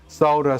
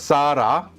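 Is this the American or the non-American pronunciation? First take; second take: non-American; American. First: It is said in a non-American way. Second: It is said in an American way.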